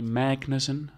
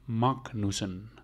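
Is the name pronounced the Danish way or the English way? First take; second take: English; Danish. First: The name is pronounced with English sounds. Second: The name is pronounced with Danish sounds. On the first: The speaker calls it wrong. "don't say it in an English or American way" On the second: The speaker calls it right. "you pronounce it really Danish"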